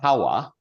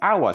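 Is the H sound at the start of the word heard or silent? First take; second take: heard; silent. First: The word begins with an audible H sound. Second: The word begins with no H sound. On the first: The speaker calls it wrong. "why do they put an H in it? They don't say hour" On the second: The speaker calls it right. "No, it's hour"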